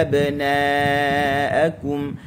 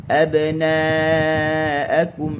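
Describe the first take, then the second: Both takes have the same delivery.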